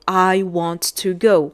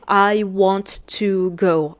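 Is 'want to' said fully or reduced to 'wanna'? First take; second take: fully; fully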